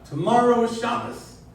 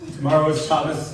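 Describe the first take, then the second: First: It is said in a changed, put-on inspirational voice. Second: It is said in a plain, ordinary speaking voice. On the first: "change your tone, and you change your placement in your voice" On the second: "You take three simple facts"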